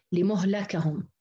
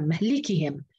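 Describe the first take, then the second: First: لمهلكهم as "li-muh-la-kahum"; damma-fatha reading. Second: مهلكهم as "mah-li-kihim", i after the ل; fatha-kasra reading. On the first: Teacher showing the other readers' version, damma on mim. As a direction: round م to u, open the ل of لمهلكهم to a. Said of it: "بضم الميم وفتح اللام الثانية". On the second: Teacher recalling Hafs's reading for comparison, kasra on the lam. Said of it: "بفتح الميم وكسر اللام". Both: Shown as a demonstration.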